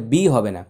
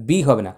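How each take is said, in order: Both takes have the same delivery.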